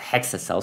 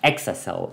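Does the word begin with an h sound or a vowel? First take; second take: h sound; vowel. First: The word begins with an h sound. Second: The word begins with a vowel sound. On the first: The speaker calls it wrong. "and not Hexacel" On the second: The speaker calls it right. "I should say Exacel"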